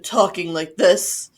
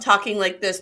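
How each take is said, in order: First: It is said in a put-on deep man's voice. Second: It is said in her normal voice.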